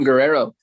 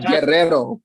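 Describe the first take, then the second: First: It is said with an English-style accent. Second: It is said with a Spanish-style accent. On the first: It matches the listener's way of saying it. The speaker calls it wrong. "I matched your accent when I said that" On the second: It is the native way of saying it. The speaker calls it right. "which is the per- the correct pronunciation"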